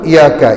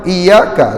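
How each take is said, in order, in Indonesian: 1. Bunyi y dibaca pendek dan tunggal. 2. Bunyi y dibaca panjang dan dirangkap. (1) "Kalau tanpa sabdu" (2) "Iyyaka dengan sabdu"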